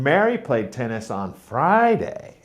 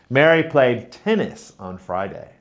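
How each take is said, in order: First: The stress is on Friday. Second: The stress is on tennis.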